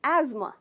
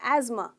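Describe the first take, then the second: Both takes have the same delivery.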